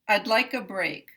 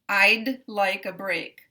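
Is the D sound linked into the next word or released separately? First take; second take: linked; separate. First: The D is released into the next word. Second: The D is released separately before the next word. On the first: The speaker calls it right. "So the release will come here" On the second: The speaker calls it wrong. "I pronounce both parts of the D here... There's too much of a division here"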